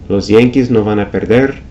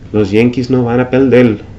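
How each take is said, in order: First: The syllable-final r sounds like an r. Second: The syllable-final r sounds like an l.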